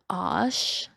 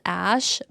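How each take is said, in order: First: The vowel sounds like the o in lot. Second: The vowel sounds like the a in cat. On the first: This is how she pronounces the name. "she says it as Osh" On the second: This is how the name is written. "The thing says Ash"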